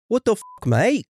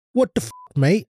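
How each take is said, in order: First: A much higher, hammed-up Aussie voice; over-the-top Australian accent. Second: Hammed-up Australian accent, pitched up; a jokey fake Australian voice; mock Aussie accent. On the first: Co-host shows how the Aussie line should sound in a silly accent. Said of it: "It's supposed to be another shrimp on the barbie". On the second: Podcaster mocks an Aussie reaction in a fake Australian accent. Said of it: "What kind of accent is that?".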